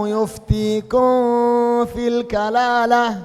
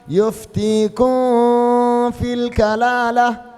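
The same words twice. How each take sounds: Both takes have the same delivery.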